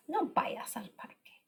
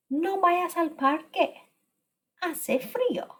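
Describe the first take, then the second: First: Soft, breathy whisper of the sentence; hushed model sentence; whispered repeat. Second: Said in the usual way. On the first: Shown as a demonstration. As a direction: whisper it back to the class. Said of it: "teacher repeats sentence softly". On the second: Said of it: "teacher models the sentence".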